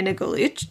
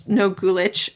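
First: "Nogulich" with a weak first vowel; reduced first syllable in "Nogulich"; slipped pronunciation. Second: "Nogulich" with a full oh; corrected pronunciation. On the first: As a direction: say "Nogulich" as nuh-GOO-litch. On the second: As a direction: say "Nogulich" as NO-goo-litch. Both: Shown as a demonstration. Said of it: "Oh my gosh".

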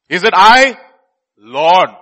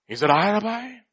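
First: Loud questioning plea, LORD set apart after a pause; punchy, emphatic plea to the master; disciples' earnest asking. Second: Softly feigned innocent question; unhurried, mild mock innocence; Judas pretending. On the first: Acted. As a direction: ask it loudly and urgently as a worried disciple. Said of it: "they were very sorrowful". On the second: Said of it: "He was pretending so well".

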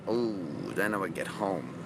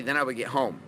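First: Low, hushed note of dread; much lower, softer, mock-ominous repeat; ominous foreboding. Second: Said in the usual way. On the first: Shown as a demonstration. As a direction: drop deep and soft, as if trouble waits. Ominous replay of the problem.

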